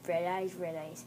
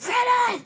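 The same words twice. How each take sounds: First: Low, soft eerie chant; hushed ghost. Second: Sudden high, loud shriek; jump-scare yell. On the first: Ghost at the bed to hidden girl, hushed and low. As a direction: intone it quietly. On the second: Ghost finding the girl under the bed, sudden yell. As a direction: scream it to startle. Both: Acted.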